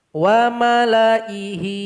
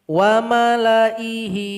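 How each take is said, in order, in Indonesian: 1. Vokal setelah lam dibaca pendek. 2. Vokal setelah lam dibaca pendek.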